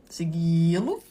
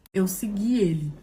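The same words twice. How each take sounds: First: "Segui-lo" put on as stiff formal Portuguese, rising at the end; mock correct grammar. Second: Said in the usual way. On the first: Shown as a demonstration. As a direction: say "Segui-lo" like a fancy proper form. ("Segui-lo" com pose de gramática formal)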